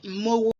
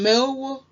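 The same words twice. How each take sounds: First: The e vowel is dropped and blended into o. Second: The e vowel is pronounced before the o. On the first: "a lot of people just blend in and say mowo" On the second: "instead of saying mowo"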